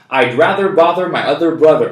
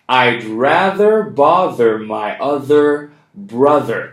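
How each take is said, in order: First: The sentence is spoken very fast. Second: The sentence is spoken fast. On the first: "And even faster" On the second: "We're going to do it fast now"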